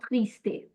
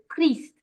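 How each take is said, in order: First: "triste" with an extra A sound tacked on the end; wrong added vowel. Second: "triste" ending on the T, no vowel after it; silent final E. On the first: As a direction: say "triste" as tris-tay, the common mistake. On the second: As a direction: cut "triste" off at the T. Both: Shown as a demonstration. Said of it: "not triste".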